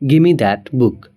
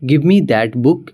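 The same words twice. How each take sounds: First: 'Give me' is reduced to 'gimme'. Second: 'Give me' is said in full.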